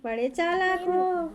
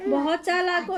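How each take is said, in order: First: Teasing. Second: Said in the usual way. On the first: Real, not acted. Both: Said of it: "इशारों में बात कर रहा है".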